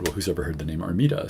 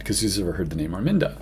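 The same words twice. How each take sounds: First: Armida said ar-MEE-da, no N before the d; a playful comeback, Armida said ar-MEE-da; name without the N. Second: Arminda said ar-MIN-da, with a clear N before the d; retelling the sitter's question, Arminda said ar-MIN-da; name with an N. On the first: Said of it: "to which I said". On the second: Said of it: "her name was Arminda". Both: Retold or imitated.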